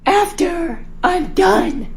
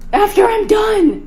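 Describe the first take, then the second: First: Even slower, drawn-out defiance; defiant repeat. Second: Put-on slow, drawn-out teen attitude; sassy backtalk. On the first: Acted. Daughter repeating her refusal to mom, slower and defiant. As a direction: drag each word out to provoke. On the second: Daughter sassing mom about cleaning up, drawn out. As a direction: stretch it out to annoy her.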